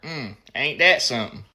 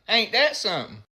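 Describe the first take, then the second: First: It sounds smug and satisfied, with a smirk. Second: It sounds curious and eager to hear more.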